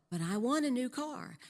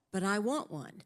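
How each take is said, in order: First: Higher mock pleading; a lightly voiced husband pushing harder for the car. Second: Mild mock pleading, wanting the car; a lightly voiced husband whining for a car. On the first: Husband insisting to wife, higher pleading. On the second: Husband to wife, a hint of pleading want. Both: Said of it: "that went like this".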